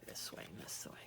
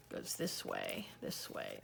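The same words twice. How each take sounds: First: Whispered to self. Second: Low, soft mutter to herself; muttered to self. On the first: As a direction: trail off into a whisper. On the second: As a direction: count it off under your breath. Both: Real, not acted. Muttering while folding pages.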